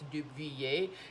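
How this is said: The name is said with a French pronunciation. "For the proper pronunciation, I think it's Dubuyer"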